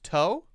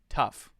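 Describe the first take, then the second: First: The word ends in an oh vowel sound. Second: The word ends in an f sound. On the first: The speaker calls it wrong. "Is that pronounced toe?" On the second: The speaker calls it right. "one is f"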